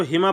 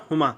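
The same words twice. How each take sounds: First: हिमा opening with a short "i"; kasra reading. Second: हुमा opening with a short "u"; damma reading. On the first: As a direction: say हिमा as hi-maa. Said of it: "या साकिन है तो हिमा पढ़ रहे". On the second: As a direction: say हुमा as hu-maa. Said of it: "ऊपर हमने पढ़ा था हुमा". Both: Shown as a demonstration.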